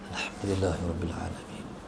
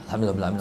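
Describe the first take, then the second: First: It is recited at moderate pace. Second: It is recited fast.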